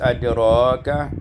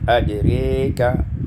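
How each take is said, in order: First: The vowel after r is an open a. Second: The vowel after r is fronted toward e.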